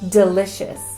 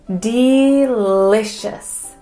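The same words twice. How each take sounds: First: The first vowel is a relaxed schwa. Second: The first vowel is full and emphasized. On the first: It is ordinary conversational speech. "in normal conversation" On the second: The speaker is really emphasizing the word. "if I'm really emphasizing that word"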